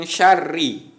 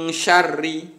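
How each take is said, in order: No difference in how they are said.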